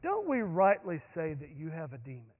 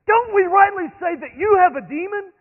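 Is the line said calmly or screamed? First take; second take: calmly; screamed. First: It is said in a relaxed, calm voice. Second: It is said loudly, in a screaming voice. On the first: The speaker is unbothered by the exchange. The speaker calls it wrong. "You don't say this leaning over an armchair" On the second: The speaker is furious in a heated exchange. The speaker calls it right. "red in the face... And so screaming"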